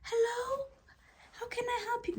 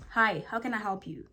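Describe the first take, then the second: First: High, soft, meek hello; timid high greeting. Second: Said in the usual way. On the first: Shown as a demonstration. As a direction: shrink into a little voice. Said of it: "As opposed". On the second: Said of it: "It's assertive".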